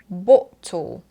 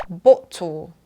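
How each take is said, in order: Both takes have the same delivery.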